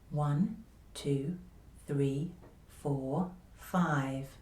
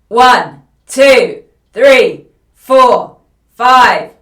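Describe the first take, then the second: First: The voice is quiet, easy and gentle. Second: The voice is loud and tightly pressed. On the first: The speaker calls it right. "confidential voice" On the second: The speaker calls it wrong. "a voice that is too loud with too much press in the voice"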